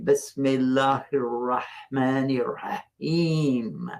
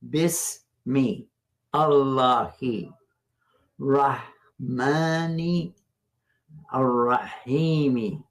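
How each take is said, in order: First: The words run together with sounds linked. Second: Each word is said separately with full endings. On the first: "when we pronounce it all together" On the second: "we don't say it that way"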